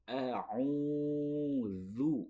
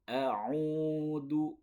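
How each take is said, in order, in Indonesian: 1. Konsonan tengahnya bunyi dh yang mirip th. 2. Konsonan tengahnya bunyi d biasa. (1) "Tapi a'udzu" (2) "Tidak boleh a'udu"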